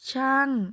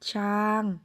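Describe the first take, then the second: First: The syllable is said with a falling tone. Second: The syllable is said with a mid level tone. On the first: "เสียงโท" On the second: "ต่อมาเสียงสามัญ"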